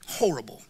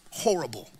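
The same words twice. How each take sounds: First: Breathy whispered horrible. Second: Said in the usual way. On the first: Real, not acted. Preacher whispering horrible about the neighborhood.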